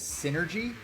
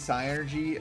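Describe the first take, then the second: First: The word begins with a short 'sin' sound. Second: The word begins with a long 'sigh' sound. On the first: The speaker calls it wrong. "he referred to the game to the Psy-Energy as Synergy, which is incorrect" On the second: The speaker calls it right. "it should very obviously be Psy-Energy"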